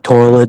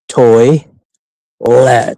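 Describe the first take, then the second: First: The word is slurred, sounding like twirl it. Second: The word is split carefully into toy and let. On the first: The speaker is not paying attention. The speaker calls it wrong. "if I'm not paying attention, I say twirl it" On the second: The speaker is concentrating on saying it properly. The speaker calls it right. "just pause and say toy let"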